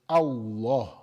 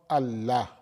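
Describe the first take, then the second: First: The L is pronounced heavy and full. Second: The L is pronounced light and thin. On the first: The speaker calls it right. "it will be pronounced heavy" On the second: The speaker calls it wrong. "you're making it light"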